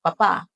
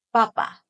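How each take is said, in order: First: Papa with the last syllable stressed and held. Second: Papa short, without final stress; quick even syllables. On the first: Teacher recapping the daddy word, papa end-stressed. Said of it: "And if you want a daddy". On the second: Teacher recapping the potato word, papa short and even. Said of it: "So if you want a potato". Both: Shown as a demonstration.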